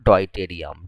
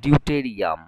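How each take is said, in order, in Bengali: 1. শব্দটি 'doy' ধ্বনি দিয়ে শুরু হয়। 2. শব্দটি 'dew' ধ্বনি দিয়ে শুরু হয়। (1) "আমরা বাংলায় বলতাম" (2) "ডিউটেরিয়াম বলা হয়"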